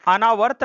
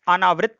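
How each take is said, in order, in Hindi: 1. अंतिम अक्षर 'vart' की तरह बोला जाता है। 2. अंतिम अक्षर 'vritt' की तरह बोला जाता है। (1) "नहीं होता" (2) "होता है"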